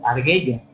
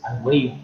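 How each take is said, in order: First: "arguello" read as "argheyo", with a silent U and a hard G. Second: "argüello" read as "ar-gwe-yo", with the U sounded. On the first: Teacher to online class, reading the word without the diéresis. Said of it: "lo tenemos que leer como arguello". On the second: Teacher to online class, reading the word with the diéresis. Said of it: "con la diéresis es argüello". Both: Shown as a demonstration.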